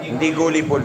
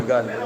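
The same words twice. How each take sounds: First: "gullible" said with a rounded u, like "goo-li-bol"; the u sounds like oo in "gullible"; the wrong take of "gullible", oo vowel; wrong pronunciation. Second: "gullible" with a neutral schwa vowel, "guh-li-bol"; "gullible" with the schwa first vowel; the corrected take of "gullible", schwa vowel; right pronunciation. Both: Shown as a demonstration.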